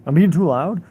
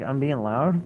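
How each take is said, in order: First: Re-enacted indignant retort, much louder and higher; loud, high-pitched, incredulous comeback; raised voice. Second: Re-enacted indignant question, rising at the end; mildly raised, challenging question; indignant retort. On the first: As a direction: raise your voice in a challenging question. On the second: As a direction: throw the accusation back, not yet yelling. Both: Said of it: "I raised my voice at 'em a little bit".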